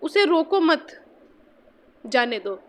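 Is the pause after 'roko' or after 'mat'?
after mat. The pause comes right after 'mat'.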